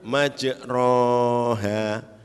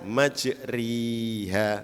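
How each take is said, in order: First: The vowel after r is a plain open a. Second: The vowel after r is close, like i. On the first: "kalau baca alif" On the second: "kalau baca ya"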